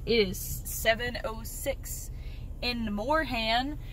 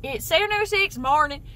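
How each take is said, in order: First: "it is seven oh six in the morning" drawn out slow in a Southern drawl with a rising end. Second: Said in the usual way. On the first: Real, not acted. Telling viewers the time while driving, in a slow Southern drawl. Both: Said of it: "I don't know why I said like that".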